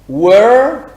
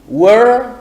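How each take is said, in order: No difference in how they are said.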